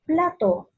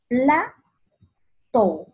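First: Said in the usual way. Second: "plato" split into PLA, pause, TO; syllable by syllable. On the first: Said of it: "separa en sílabas". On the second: Shown as a demonstration. Teacher separating "plato" for pupils, syllable by syllable. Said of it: "Dónde lleva la mayor fuerza de voz".

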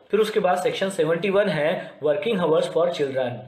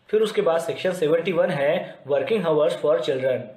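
Both takes have the same delivery.

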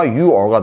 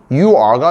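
First: "You are" merged into "you're"; contracted form. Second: "You are" with a clear, open "are"; full form. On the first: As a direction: shorten "are" to a weak "or" joined to "you". ("유어"로 줄여서 발음) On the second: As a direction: keep "you" and "are" as two words. ("유 아"로 풀어서 발음) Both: Shown as a demonstration. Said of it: "그러니까 줄임명이에요".

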